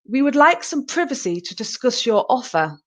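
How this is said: It is spoken in a British accent. "in the British English"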